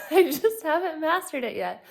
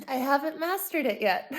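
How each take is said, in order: First: Louder, higher laughing repeat; laughing harder. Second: Laughing. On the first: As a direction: say it again through a bigger laugh. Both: Real, not acted.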